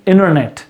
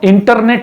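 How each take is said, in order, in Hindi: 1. N के बाद का T छोड़ दिया जाता है। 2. N के बाद का T साफ़ बोला जाता है। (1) "हम लोग टी को बंद करेंगे" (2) "इसको हम इंटरनेट नहीं बोलेंगे"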